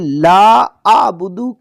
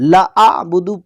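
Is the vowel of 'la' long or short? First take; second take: long; short. First: The vowel of 'la' is drawn out long. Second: The vowel of 'la' is cut short. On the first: I do not worship them. The speaker calls it right. "लंबा करने" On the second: I worship them too. The speaker calls it wrong. "लंबा करने की बजाय ला आबुदु पढ़ दिया"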